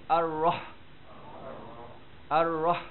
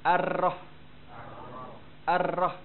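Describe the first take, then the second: The two takes are said the same way.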